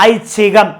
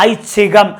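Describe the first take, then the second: No difference in how they are said.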